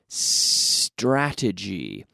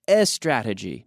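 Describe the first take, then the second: First: The word starts directly with the S sound. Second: An extra vowel sound comes before the S. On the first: The speaker calls it right. "Beginning with the lips, the S in my lips" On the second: The speaker calls it wrong. "not a strategy"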